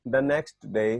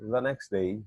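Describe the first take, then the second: First: The t sound in next is pronounced. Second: The t sound in next is dropped. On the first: "हम इसको ऐसे बोलते हैं" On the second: "अंग्रेज कैसे बोलेंगे"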